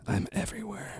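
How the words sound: It is said in a dark, threatening tone. No one can escape the speaker. "you can't escape me"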